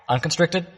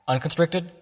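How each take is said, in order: No difference in how they are said.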